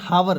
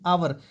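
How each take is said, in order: First: The word begins with an h sound. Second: The word begins with a vowel sound. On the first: The speaker calls it wrong. "That is not हावर" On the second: The speaker calls it right. "That is आवर"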